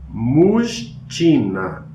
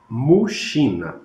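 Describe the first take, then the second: First: The middle consonants are said as separate sounds. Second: The middle consonants merge into one sh sound. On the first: This is how the spelling would suggest it sounds. The speaker calls it wrong. "o som deveria ser Mujtina" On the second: This is how the word is actually pronounced. The speaker calls it right. "mas na verdade é Mushina"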